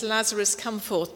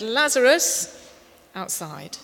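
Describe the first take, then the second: First: Said in the usual way. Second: "Lazarus" shouted long and loud, "outside" dropped; loud call. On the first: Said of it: "It's in our Bibles, it says". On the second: Shown as a demonstration. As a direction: shout "Lazarus" across the grave, then a short "outside". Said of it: "But he actually said".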